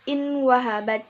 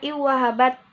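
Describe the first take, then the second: First: The n sound is pronounced clearly before w. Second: The n sound merges into the following w. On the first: The speaker calls it wrong. "tidak boleh dibaca inwahabat" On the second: The speaker calls it right. "harus dibaca iwahabat"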